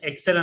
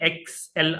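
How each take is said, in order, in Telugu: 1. ఇది ఒకే పదంగా, 'ek-sel' అని అంటారు. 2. ఇది 'X-L' అక్షరాల్లా అంటారు. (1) "ఎక్సెల్ అని కాకుండా" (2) "ఎక్స్ఎల్ అని అని చెప్పి ప్రొనౌన్స్ చేయాలి"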